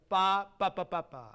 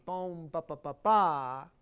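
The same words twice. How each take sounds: First: First "ba" loud, last "ba" falling away; accent "ba" at the start, not the end; displaced downbeat. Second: Last "ba" loud and drawn out; leading to downbeat. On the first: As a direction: punch the opening "ba", then separate triplet. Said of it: "instead of". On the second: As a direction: drive "Bum, ba, ba, ba" into a big final "ba". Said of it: "leading always to the downbeat". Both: Shown as a demonstration.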